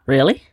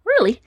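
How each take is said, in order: First: Questioning REALLY, pitch sweeping up from low; stunned, rising one-word question. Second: REALLY high at the start, falling at the end; high, falling one-word answer; confirming reply. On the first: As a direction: ask it in astonishment, rising at the end. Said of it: "Roman was stunned". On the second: Wombat confirms to stunned Roman. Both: A narrator's reading.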